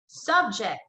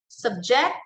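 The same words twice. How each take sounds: First: "subject" as a noun, SUB stressed, falling after; stress on first syllable. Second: "subject" as a verb, sub-JECT, rising at the end; stress on second syllable. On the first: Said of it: "the stress there is on the first syllable". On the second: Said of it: "the stress there is on the second syllable". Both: Shown as a demonstration.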